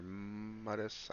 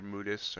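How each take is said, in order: First: Mudis with a long, held M; alternative name attempt. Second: Mudis as a tentative first try; first name attempt. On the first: Streamer offering another guess at the viewer's name, drawn-out pronunciation. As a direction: hesitate on the opening M of Mudis, drawing it out. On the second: Streamer trying a new viewer's name, tentative pronunciation. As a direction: say Mudis straight through, without holding the M. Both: Shown as a demonstration. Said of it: "don't know if I'm pronouncing your name right".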